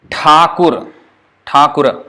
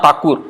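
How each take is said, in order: First: "Thakur" with a retroflex aspirated Th, a hard breathy T; Bengali Thakur. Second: "Thakur" with a plain unaspirated T, the wrong way; mock the devotees' plain-T "Thakur". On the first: Teacher showing students the Bengali Thakur, clear. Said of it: "we say Thakur". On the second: Teacher showing students the wrong Thakur, mild mock. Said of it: "Not Thakur". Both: Shown as a demonstration.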